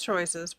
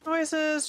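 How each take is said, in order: First: Said in the usual way. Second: High sing-song Choices. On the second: Pretend. Mulls options aloud.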